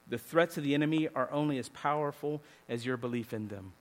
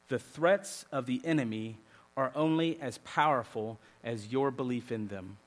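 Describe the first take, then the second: First: It is said at normal speed. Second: It is said very slowly.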